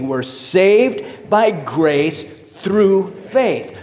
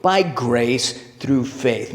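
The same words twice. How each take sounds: First: Very slow, drawn out, every word spaced; unison recitation. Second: Slow, weighted by grace through faith; emphatic creed. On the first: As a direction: chant it together with the room. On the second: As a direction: lay down each word of by grace through faith. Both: Shown as a demonstration. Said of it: "Maybe say that with me".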